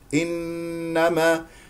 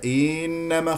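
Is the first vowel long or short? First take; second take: short; long. First: The first vowel is kept short and crisp. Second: The first vowel is stretched into a long ee. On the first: The speaker calls it right. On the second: The speaker calls it wrong.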